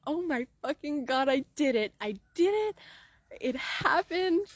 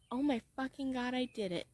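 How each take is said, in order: First: Excited exclaim. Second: Softer, hushed disbelief; awed quiet. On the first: Coach imagining reaching her goal, exclaiming in triumph. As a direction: build it up into joy. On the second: Coach imagining reaching her goal, hushed and awestruck. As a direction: breathe it out in quiet awe. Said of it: "I think". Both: Retold or imitated.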